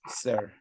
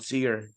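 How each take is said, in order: First: The vowel is a central 'er' sound. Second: The vowel is a front 'ee'-like sound. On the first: The speaker calls it right. "you pronounce it air" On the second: The speaker calls it wrong. "That's why it's not seer"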